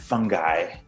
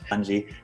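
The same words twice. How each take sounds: First: It uses the American pronunciation of the word. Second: It uses the European pronunciation of the word. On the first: This form is used more in America. "is more of the American variant" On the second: This form is used more in Europe. "is more of a European variant"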